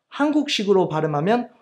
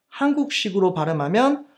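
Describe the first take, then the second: No difference in how they are said.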